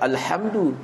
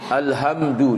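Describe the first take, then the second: First: The h is said with strong breathy air. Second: The h is said with no breathy air. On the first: The speaker calls it right. "bukan Alhamdu" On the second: The speaker calls it wrong. "tak ada langsung dia punya angin"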